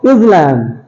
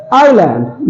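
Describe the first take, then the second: First: Island drawn out as "iz-land"; wrong pronunciation. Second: Island with a silent S; correct pronunciation. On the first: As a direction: sound the S in island, slowly. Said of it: "not island". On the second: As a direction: say island as "ai-land". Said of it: "this word is called as". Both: Shown as a demonstration.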